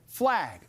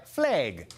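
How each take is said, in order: First: It is said in a standard American accent. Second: It is said in a Minnesota-style regional accent. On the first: "instead of flag" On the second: "maybe you fly a flag"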